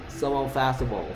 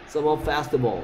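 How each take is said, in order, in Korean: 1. 두 m 소리가 하나로 합쳐져요. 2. 두 m 소리가 하나로 합쳐져요.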